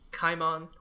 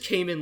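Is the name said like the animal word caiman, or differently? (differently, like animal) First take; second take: differently; like animal. First: It sounds different from the animal word caiman. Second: It sounds like the animal word caiman. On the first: This is how the name is said in the adaptation. "in the anime they pronounce it Kaimon" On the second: This is the name as it was originally meant. "it is Kaimon, like the animal"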